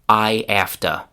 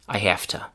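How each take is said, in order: First: The h is dropped, with no linking y. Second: It keeps the h, with an f sound. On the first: "we throw away the h sound at the beginning of have" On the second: "we take the voiced v sound and we change it to unvoiced f"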